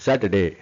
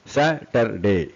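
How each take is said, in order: First: Said in the usual way. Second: Slow SA - TER - DAY in three beats; syllable by syllable. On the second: Shown as a demonstration. Teacher demonstrates three syllables, syllable by syllable. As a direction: separate each syllable of Saturday.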